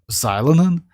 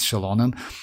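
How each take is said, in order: First: The name begins with a 'z' sound. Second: The name begins with a 'sh' sound. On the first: This is how it was said before the official pronunciation was known. The speaker calls it wrong. "back then we pronounced that like z-" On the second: This is the official pronunciation. The speaker calls it right. "officially it's Shilonen"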